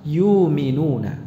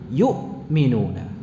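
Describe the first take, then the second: First: The middle catch is replaced by a long vowel. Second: A clear, heavy catch sounds in the middle. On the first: This is the reading of other narrations than Hafs. "Itu bisa dibaca apa? Yuminuna" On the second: This is the reading of the Hafs narration. "suaranya macet gitu ya. Yu ya. Ini berat ya seperti itu"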